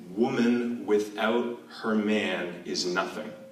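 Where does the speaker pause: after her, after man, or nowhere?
nowhere. It is said flat, with no phrasing pauses. The meaning is unclear. "I'm going to try not to punctuate it with my voice"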